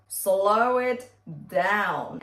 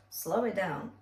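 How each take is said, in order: First: Slow it down stretched out slowly; demonstrating a slowed tempo, very slow. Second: Said in the usual way. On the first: Shown as a demonstration. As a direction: drag each word of Slow it down out. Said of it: "If you find it too fast".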